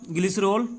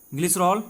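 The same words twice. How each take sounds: The two takes are said the same way.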